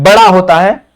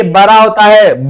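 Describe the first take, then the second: First: "बड़ा" with a clear flapped ड़; corrected pronunciation. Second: Blur the ड़ in "बड़ा" into a plain r; lisping slip. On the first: Teacher fixes own slip, "बड़ा" with a crisp ड़. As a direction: repeat "बड़ा" carefully, tongue flapping on ड़. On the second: Teacher's tongue slips on "बड़ा", lisped as "bara". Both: Real, not acted. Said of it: "तुतलाने लगी है".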